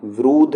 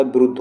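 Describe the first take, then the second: First: विरुद्ध with the U stretched to "virooodh"; long U. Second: विरुद्ध with a quick, short U. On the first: Teacher showing the wrong form, long U in विरुद्ध. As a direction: draw out the U in विरुद्ध. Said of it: "विरुद्ध नहीं होता". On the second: Teacher giving the correct form, short U in विरुद्ध. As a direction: keep the U in विरुद्ध brief. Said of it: "विरुद्ध होता है". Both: Shown as a demonstration.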